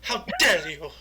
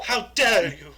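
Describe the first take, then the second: First: Mock Greta outrage; shaking with anger. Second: Louder, trembling mock outrage, laughing; hammed-up trembling fury; shaking with anger. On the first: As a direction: tremble with fake fury. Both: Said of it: "you gotta get the tremble".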